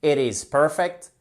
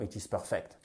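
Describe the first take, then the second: First: "perfect" as slow PER-fect, first syllable stressed; good pronunciation. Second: "perfect" as low, soft per-FECT, French-sounding; bad pronunciation. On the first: Teacher repeats the good version, "perfect" stressed on first syllable. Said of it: "c'est une bonne prononciation". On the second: Teacher dismisses the bad version, "perfect" stressed on second syllable. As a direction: drop soft and low, weight on the end of "perfect". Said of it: "c'est pas bon". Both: Shown as a demonstration.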